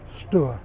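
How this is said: The name is said the Suffolk way. "If you've got a strong Suffolk accent"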